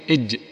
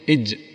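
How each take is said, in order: Both takes have the same delivery.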